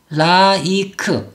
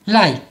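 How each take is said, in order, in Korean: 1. 이 단어는 세 음절로 발음해요. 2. 이 단어는 한 음절로 발음해요. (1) "이렇게 삼음절 아닐까? ... 소리를 내면 당연히 안 된다" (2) "한 박자로 소리를 내야"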